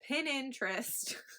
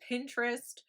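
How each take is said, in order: First: It is said with an extra fourth syllable. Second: It is said with three syllables. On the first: The speaker calls it wrong. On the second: The speaker calls it right.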